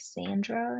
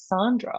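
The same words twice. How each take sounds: First: It is said in a Californian American accent. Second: It is said in a somewhat British accent. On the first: "the more California version" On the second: "a bit more British or something"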